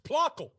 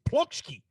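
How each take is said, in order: First: The name ends with a 'kel' sound. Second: The name ends with a 'shki' sound. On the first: The speaker calls it right. "It's Plockel. Sorry" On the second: The speaker calls it wrong. "I would think it's Plokshki"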